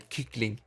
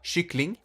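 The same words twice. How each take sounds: First: The word begins with a hard k sound. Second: The word begins with a soft sh-like sound. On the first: The speaker calls it wrong. "play stupid and say kyckling, because that's how it's spelled" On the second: The speaker calls it right. "so you pronounce it with sh sh"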